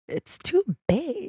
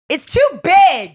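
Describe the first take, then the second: First: It is said at normal, softer volume. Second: It is said louder.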